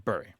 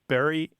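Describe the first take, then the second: First: The vowel sounds like the one in 'fury'. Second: The vowel sounds like the one in 'berry'. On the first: "follow the more typical pronunciation of the U" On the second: "do say B U R Y the same as they say B R R Y"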